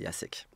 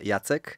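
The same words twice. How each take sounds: First: The name is pronounced the French way. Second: The name is pronounced the Polish way. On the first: This is how people in France are asked to say it. "en France je dis à tout le monde que de m'appeler Jacek" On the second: This is how the name is said in the home country. "en polonais ce serait Jacek"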